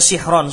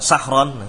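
First: The first vowel is i. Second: The first vowel is a. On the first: The speaker calls it right. "sihron kasroh" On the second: The speaker calls it wrong. "sahron mesti salah ini"

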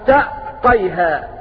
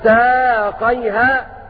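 First: A glottal stop is pronounced in the middle. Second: A long a vowel replaces the glottal stop. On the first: "بثقول الهمزة" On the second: "بإبدال الهمزة ألفا"

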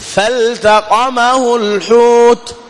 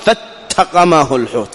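First: The L is pronounced clearly before the t. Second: The L merges into the following t. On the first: The speaker calls it right. "إظهار لام الفعل" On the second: The speaker calls it wrong. "ومن الخطأ أن تقول"

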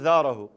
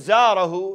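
First: The word begins with a voiced th sound. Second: The word begins with a z sound. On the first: It has no meaning. The speaker calls it wrong. "يقول ذاره. شنو ذاره؟ ليس فيها معنى" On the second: He visited him. The speaker calls it right. "يريد يقول زاره"

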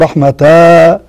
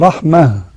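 First: The word ends in a lengthened a vowel. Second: The word ends in a stopped h sound. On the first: The speaker calls it wrong. "لا تقول رحمة أو رحمة على أساس أنها مد عوض" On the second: The speaker calls it right. "إذا وقفت عليها بتقف عليها بالهاء"

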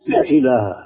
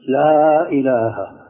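First: The vowel of 'la' is cut short. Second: The vowel of 'la' is held for two counts. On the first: The speaker calls it wrong. "تكاد تقول لا إله" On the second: The speaker calls it right. "فبدك مد حركتين"

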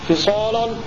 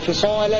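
First: The L is heavy and thick. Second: The L is light and thin. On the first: "هذا تغليظ" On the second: "هذا ترقيق"

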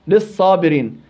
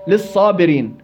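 First: The L merges into a doubled S sound. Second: The same.

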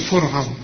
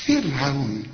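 First: The r sound is heavy and thick. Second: The r sound is light and thin. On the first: The speaker calls it wrong. "ما تقولش فرعون" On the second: The speaker calls it right. "كل رأسك ما يسبقها كسر زي ده ترقق الرأس"

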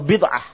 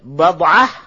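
First: The first syllable has an 'i' vowel. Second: The first syllable has an 'a' vowel. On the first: "di kasrah" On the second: "di fathah"

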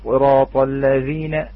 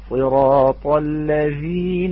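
First: The dh sound is rushed and clipped short. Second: The dh sound is held for a moment. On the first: The speaker calls it wrong. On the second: The speaker calls it right.

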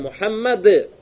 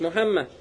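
First: The name ends with a final d sound. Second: The name ends without a final d sound. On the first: The speaker calls it right. "Правильно же?" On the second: The speaker calls it wrong. "как мисрицы говорят, Мухамма. Это неправильно"

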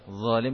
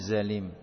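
First: It begins with a 'dh' sound, tongue on teeth. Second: It begins with a buzzing 'z' sound. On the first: The speaker calls it right. "mengucapkan zalim dengan zalim" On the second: The speaker calls it wrong. "kesalahan dalam pengucapan huruf dzal"

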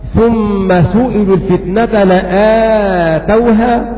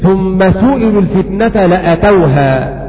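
First: The vowel after the hamza is drawn out long. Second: The vowel after the hamza is kept short. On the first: They gave it. "قرأت بالمد لآتوها" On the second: They came to it. "بمعنى داؤوها"

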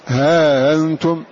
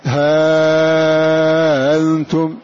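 First: The vowel before the softened hamza is kept short. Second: The vowel before the softened hamza is held long. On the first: "ثم أتبعناه بالقصر" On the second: "قدمنا التسهيل لوجود أثر الهمز"

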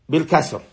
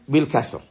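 Both takes have the same delivery.

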